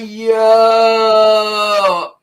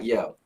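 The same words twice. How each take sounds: First: It is said with high, extended energy. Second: It is said flatly with little energy.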